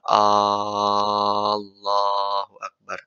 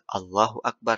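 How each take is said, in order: First: The opening vowel of Allah is lengthened. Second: No sound is lengthened or doubled. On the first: The speaker calls it wrong. "Nggak boleh memanjangkan hamzahnya" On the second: The speaker calls it right. "harus takbir"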